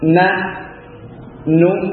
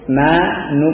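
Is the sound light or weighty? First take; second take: weighty; light. First: The syllables are said heavily, with weight. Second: The syllables are said lightly, without weight. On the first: The speaker calls it right. "agak berbobot ketika mengeluarkannya, mantap gitu ya. Tidak ringan" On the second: The speaker calls it wrong. "walaupun ini adalah sudah benar ya, tapi kurang sempurna ya"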